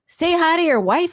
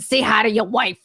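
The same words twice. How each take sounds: First: It is said in a Pacific Northwest accent. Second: It is said in a New York accent. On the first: It sounds very friendly. "if you're like from the P N W, like, hey" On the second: It sounds like a threat. "If you do it in like a New York accent, it sounds like a threat"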